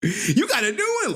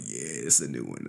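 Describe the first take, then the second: First: High, laughing mock question; mock curious questioner. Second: Low, soft, offhand answer; mock nonchalant reply. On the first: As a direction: imitate an eager viewer, high-voiced. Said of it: "You like". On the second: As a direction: drop low and quiet, playing it cool.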